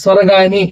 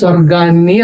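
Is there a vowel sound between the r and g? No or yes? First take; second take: yes; no. First: A vowel separates r and g; single n. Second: The r and g form a cluster; double n. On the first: The speaker calls it wrong. "స్వరగాని అని వచ్చింది కాబట్టి ఇది తప్పు" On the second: The speaker calls it right. "ఒత్తుగా రాయాలి"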